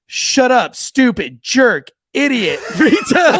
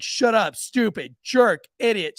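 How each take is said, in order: First: Loud, high, slow list of insults; son's loud outburst. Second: Put-on milder, higher-pitched replay of a kid; son's retold insults. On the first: Retold or imitated. Oldest son answering the church teacher, loud blurted insults. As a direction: belt out each insult one by one. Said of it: "My oldest son goes". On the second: Retelling the son's insults, mildly imitated blurting. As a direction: list the insults with a light punch. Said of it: "he was like".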